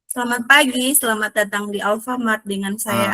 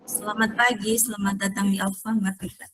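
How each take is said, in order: First: It is said with more energy and enthusiasm. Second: It is said in a calmer, plainer way.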